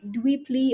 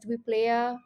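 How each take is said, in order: First: The name ends with a 'lee' sound. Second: The name ends with a 'lay-uh' sound. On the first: The speaker calls it right. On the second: The speaker calls it wrong.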